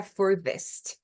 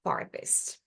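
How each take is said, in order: First: British furthest with the vowel changed. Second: Farthest whispered the American way. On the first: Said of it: "muda um pouquinho a pronúncia". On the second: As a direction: give farthest the American sound. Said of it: "e aí o americano". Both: Shown as a demonstration.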